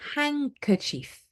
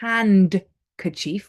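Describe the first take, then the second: First: The D sound is left out entirely. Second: The D sound is pronounced in the middle. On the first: The speaker calls it right. "we say handkerchief. Handkerchief. We don't pronounce the D" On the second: The speaker calls it wrong. "We don't say handkerchief"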